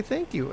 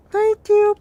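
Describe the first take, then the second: First: Higher, softer polite quote; small, high, soft thanks; quoted customer thanks. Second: Very high, loud little imitation; imitating a cute, muffled customer. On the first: Retold or imitated. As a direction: lightly imitate a mannerly customer. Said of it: "It's like they say". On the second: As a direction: squeak out a cute muffled thanks. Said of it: "in the muffled voice they give".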